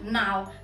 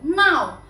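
First: The character is read with Cantonese pronunciation. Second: The character is read with Mandarin pronunciation. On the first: "粵語讀鬧" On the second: "普通話讀鬧"

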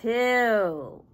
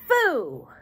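First: The word starts with a 't' sound. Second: The word starts with an 'f' sound. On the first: The speaker calls it right. "but two" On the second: The speaker calls it wrong. "Not foo"

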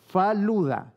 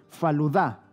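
First: The stress is not on the last syllable. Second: The stress is on the last syllable. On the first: The speaker calls it wrong. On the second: The speaker calls it right.

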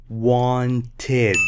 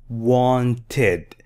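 Both takes have the same delivery.

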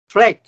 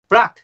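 First: It is said with an American accent. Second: It is said with a British or Australian accent. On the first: "这是美国发音" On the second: "是澳洲或者是英国的发音"

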